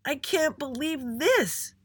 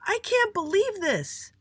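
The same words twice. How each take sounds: First: High, drawn-out shout leaning on THIS. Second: Very high, slow outraged scream. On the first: Little Andy repeats himself to his parents, shouting. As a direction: stretch it out, hitting THIS hardest. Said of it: "he shouted again". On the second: Little Andy storms in at home, screaming. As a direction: scream it at the top of your range. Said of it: "and screamed". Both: A narrator's reading.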